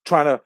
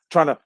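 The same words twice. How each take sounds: The two takes are said the same way.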